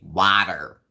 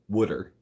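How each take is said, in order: First: It is said in a heavy Jersey accent. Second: It is said in a Philadelphia accent.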